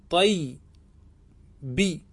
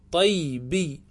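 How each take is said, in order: First: Teacher drawing out طيبي so students catch every sound; drawn out slowly. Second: Said in the usual way. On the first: Shown as a demonstration. Teacher to students, showing the form slowly. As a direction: stretch طيبي very slowly, each sound held long. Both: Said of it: "فستقول في النسبة إلى طيب".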